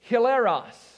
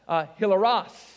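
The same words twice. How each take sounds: First: The word is pronounced the English way. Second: The word is pronounced the Greek way.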